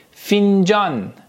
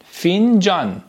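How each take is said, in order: Both takes have the same delivery.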